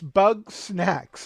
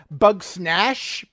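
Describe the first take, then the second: First: The name ends with a ks sound. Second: The name ends with a sh sound. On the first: The speaker calls it right. "it's bug snacks, like snacks that are made out of bugs" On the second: The speaker calls it wrong. "I've heard it from Jen pronounced bug snash"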